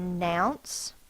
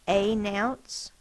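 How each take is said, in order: First: The first vowel is a weak 'uh' sound. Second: The first vowel is a long 'ay' sound. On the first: The speaker calls it right. "we say uh and then announce" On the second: The speaker calls it wrong. "it would say its name, a. A-nounce, that's not how we pronounce it"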